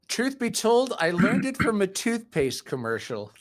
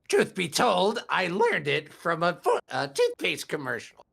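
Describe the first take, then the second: First: It is said in an ordinary speaking voice. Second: It is said in a menacing Joker-like voice.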